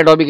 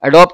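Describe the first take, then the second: First: Three-syllable Adobe with a final "bee". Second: Two-syllable Adobe, no final vowel; Adobe as "a-DOB". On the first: Teacher offers students either choice, Adobe as "a-DO-bee". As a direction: finish Adobe on a clear "ee". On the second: Teacher offers students either choice, Adobe as "a-DOB". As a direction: close Adobe on a b sound. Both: Shown as a demonstration. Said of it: "जो आपको समझ में आ रहा हो".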